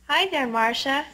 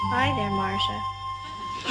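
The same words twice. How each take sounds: First: It is said loudly. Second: It is said quietly.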